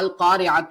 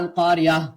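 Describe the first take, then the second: First: The word ends with a t sound and vowel. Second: The word ends with an h sound. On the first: The word continues into what follows. "அல் காரியாத்து அப்படின்னு இருக்கும்" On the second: The reciter stops on this word. "முடிக்கிறப்ப ஹான்ற சவுண்ட் வச்சு முடிப்போம்"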